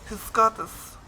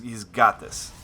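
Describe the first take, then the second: First: Put-on higher, playful German accent; sexy German accent. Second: Said in the usual way. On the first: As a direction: do a mock-sultry German accent. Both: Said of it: "my German accent is always kind of sexy".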